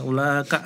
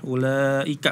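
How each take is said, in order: First: The i vowel after ula is dropped. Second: The i vowel after ula is clearly pronounced. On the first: The speaker calls it wrong. "i-nya dihilangkan" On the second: The speaker calls it right. "ulaika harusnya"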